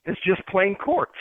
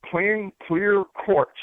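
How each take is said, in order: First: Said in the usual way. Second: Slow, with clear leaned on; correcting himself, slowing down to stress clear. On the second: Real, not acted. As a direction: draw out "Plain, clear quartz", hitting clear.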